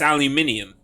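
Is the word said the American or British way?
British. It is said the British way. The speaker calls it right. "and it's aluminium"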